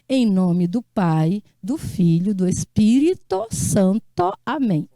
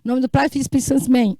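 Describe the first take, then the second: First: Each word is said fully and separately. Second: The words run together, losing sounds. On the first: "Ninguém diz assim" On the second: "Dá até um trava-língua"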